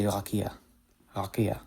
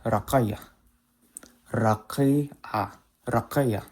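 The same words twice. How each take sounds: First: Raqiya with a simple K; raqiya, ordinary K at the back of the mouth; modern Hebrew K. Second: Raqiya, strong qaf-like K; emphatic K. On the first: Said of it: "the kof is a simple K". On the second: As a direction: push the K of raqiya far back in the throat. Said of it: "in Chosen Hebrew, it's more like". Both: Shown as a demonstration.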